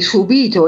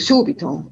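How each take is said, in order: First: The stress falls on the second syllable. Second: The stress falls on the first syllable. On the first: It means suffered. The speaker calls it wrong. "dicono per esempio" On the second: It means immediately. The speaker calls it right.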